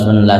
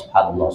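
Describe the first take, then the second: First: It is rushed and the syllables blur together. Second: It is quick but every syllable is distinct. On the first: The speaker calls it wrong. "Yang talalah hancap" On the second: The speaker calls it right. "Jelas-jelas lah bacaannya"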